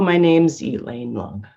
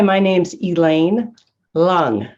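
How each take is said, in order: First: The words run together and the energy fades. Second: Short pauses split it; the surname is punched. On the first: The speaker calls it wrong. "running things together and running out energy" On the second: The speaker calls it right. "pause, part, punch"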